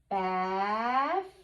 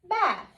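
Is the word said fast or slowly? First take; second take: slowly; fast. First: The word is stretched out slowly. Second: The word is said quickly as one unit. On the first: "read it slowly" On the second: "read it fast like a real word"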